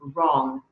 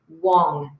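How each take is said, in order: First: The word begins with an R sound. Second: The word begins with a W sound. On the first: The speaker calls it right. "instead of wrong" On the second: The speaker calls it wrong. "wong instead of wrong"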